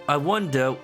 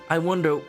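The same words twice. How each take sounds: No difference in how they are said.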